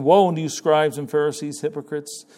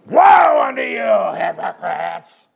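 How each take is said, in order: First: Said in the usual way. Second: Loud, slow condemning shout of woe; letting them have it. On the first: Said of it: "And you know what I always thought?". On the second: Retold or imitated. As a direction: thunder the woe at them, stretching every word. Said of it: "He's letting them have it".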